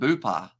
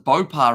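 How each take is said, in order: First: The first vowel sounds like 'oo'. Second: The first vowel sounds like 'oh'. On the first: The speaker calls it wrong. "rather than Boopar" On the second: The speaker calls it right. "it's Bopar rather than Boopar"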